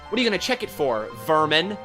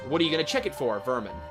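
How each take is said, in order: First: Vermin is asked as a separate guess. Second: Vermin is tacked on as a name. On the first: It asks whether vermin is the thing being checked for. "It depends on how you read it" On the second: It calls the listener vermin. "It depends on how you read it"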